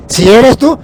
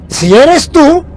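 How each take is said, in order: First: A hesitant "Si eres tú", rising at the end; doubtful quote. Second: Unsure Peter, high and loud. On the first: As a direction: say "Si eres tú" a bit louder, with a questioning rise on "tú". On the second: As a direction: raise the voice high on "Si eres tú", loud and searching. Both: Retold or imitated. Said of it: "no estaba muy seguro".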